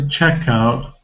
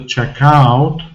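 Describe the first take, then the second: First: The stress is on the first syllable. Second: The stress is on the second syllable. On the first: The speaker calls it right. "it must be to the checkout" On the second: The speaker calls it wrong. "not the checkout, because if you're pronouncing stress on ow sound"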